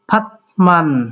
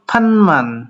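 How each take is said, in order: First: A t sound comes before the m. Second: An n sound comes before the m.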